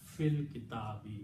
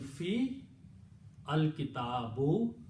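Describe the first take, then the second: First: The words are joined smoothly, with the alif dropped. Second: The words are separated, with the alif sounded. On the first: The speaker calls it right. "It is smooth on the tongue, saves time" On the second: The speaker calls it wrong. "Break in between, takes a long time"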